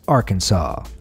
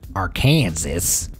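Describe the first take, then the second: First: The final S is silent. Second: The final S is pronounced. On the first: The speaker calls it right. "the correct pronunciation of Arkansas with the final S being silent" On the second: The speaker calls it wrong. "Those would both be considered illegal"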